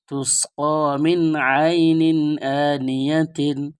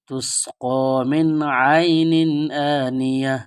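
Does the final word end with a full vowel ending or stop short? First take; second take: full ending; stopped. First: The last word ends with a full -tin ending. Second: The last word ends short in -ya, stopped.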